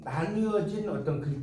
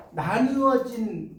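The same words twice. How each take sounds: First: Said in the usual way. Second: 나누어진 drawn out slowly and stressed; slow emphasis. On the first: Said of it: "나누어진 형태의". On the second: Shown as a demonstration. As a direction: spell out 나누어진 slowly, syllable by syllable. (나누어진을 천천히 끊어 강조)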